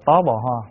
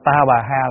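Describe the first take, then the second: First: The word is said with rounded 'o' vowels. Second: The word is said with open 'a' vowels. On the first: This is the old reading, close to the Chinese. "ngày xưa đọc là tó bò ho" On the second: This is the reading used today. "cái câu là ta bà ha"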